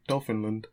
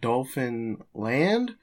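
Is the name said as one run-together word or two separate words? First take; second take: one word; two words. First: Said as one word, land run together, unstressed. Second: Said as two separate words, land fully stressed. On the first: "Or is it like Newfoundland? Or it's like Dolphinland?" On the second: "Do you say it like Dolphin Land?"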